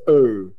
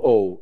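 First: The vowel sounds between e and o. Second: The vowel is a plain o sound. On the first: The speaker calls it right. "In Czech, this is O" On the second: The speaker calls it wrong. "It's not O"

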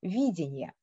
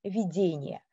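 First: The stress is on the first syllable. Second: The stress is on the second syllable. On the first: The ability to perceive and assess one's surroundings. "акцент переместился ... на первый слог" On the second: An apparition or something seen in imagination or a dream. "с ударением на втором слоге"

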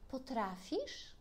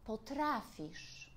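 First: It is said with a questioning intonation. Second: It is said with an exclaiming, emphatic intonation. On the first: The speaker asks whether the listener is able to. "To jest pytanie" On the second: The speaker asserts that the listener is able to. "A teraz powiem to inaczej"

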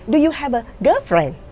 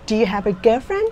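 First: The voice falls at the end. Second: The voice rises at the end. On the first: The speaker calls it wrong. "chứ không bao giờ bạn nói là" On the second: The speaker calls it right. "ngữ điệu đi lên đó"

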